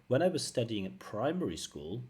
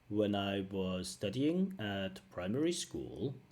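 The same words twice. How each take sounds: First: The words flow together smoothly. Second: Each word is said separately and choppily. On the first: The speaker calls it right. "Natural is" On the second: The speaker calls it wrong. "that's not natural"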